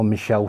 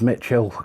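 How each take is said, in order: First: The middle consonant sounds like 'sh'. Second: The middle consonant sounds like 'tch'. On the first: The speaker calls it right. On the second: The speaker calls it wrong.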